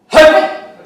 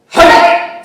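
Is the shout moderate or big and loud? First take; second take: moderate; big. First: The shout is moderate in size and force. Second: The shout is big, wide and forceful.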